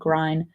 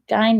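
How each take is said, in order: First: The syllable has an r sound after g. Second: The syllable has no r sound after g. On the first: The speaker calls it wrong. "not grine" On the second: The speaker calls it right. "gyne, not grine"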